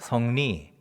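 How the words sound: The first syllable has a dialect 'eo' vowel. "이렇게 발음하죠"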